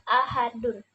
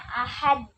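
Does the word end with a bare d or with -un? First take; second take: -un; bare d. First: The word ends with an added -un sound. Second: The word ends on a bare, unvoweled d. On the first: "yaitu domah tanwin" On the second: "dimatikan hurufnya, dalnya"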